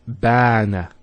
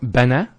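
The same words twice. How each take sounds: First: The vowel is held long. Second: The vowel is kept short. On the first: The speaker calls it right. "has a long vowel" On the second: The speaker calls it wrong.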